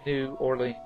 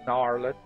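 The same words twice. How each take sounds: First: The name is said as two separate words. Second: The name is run together like one word. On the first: This is the proper way to say it. "it is New Orleans. It's two words" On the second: This is the casual local way of saying it. "I do say New Orleans"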